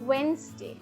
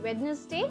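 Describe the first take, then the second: First: The first d is left silent. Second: The first d is clearly pronounced. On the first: The speaker calls it right. "you simply say Wednesday" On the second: The speaker calls it wrong. "Don't say वेडनेसडे"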